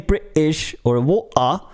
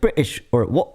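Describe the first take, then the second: First: The sounds are said apart, as separate pieces. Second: The sounds run together as one smooth unit. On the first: The speaker calls it wrong. "Don't say" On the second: The speaker calls it right. "It's it's it's like more connected"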